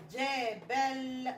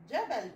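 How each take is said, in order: First: جبل slowly stretched as jaa-ball; slow, drawn-out جبل; sounded-out word. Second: Said in the usual way. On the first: Shown as a demonstration. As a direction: blend جبل syllable by syllable, holding the l. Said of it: "بقت كلمة". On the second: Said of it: "اللي هو الجبل".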